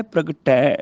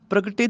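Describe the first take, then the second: First: ਪ੍ਰਗਟੈ ending in open "ai". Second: ਪ੍ਰਗਟੇ ending in "ay"; wrong close ending. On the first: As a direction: draw out the final "tai" of ਪ੍ਰਗਟੈ. (ਪ੍ਰਗਟੈ, ਅੰਤ ਵਿੱਚ ਦੁਲਾਵਾਂ) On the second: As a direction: say ਪ੍ਰਗਟੇ with final "tay". (ਪ੍ਰਗਟੇ, ਅੰਤ ਵਿੱਚ ਲਾਂ) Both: Shown as a demonstration. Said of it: "ਪ੍ਰਗਟੇ ਦੀ ਬਜਾਏ".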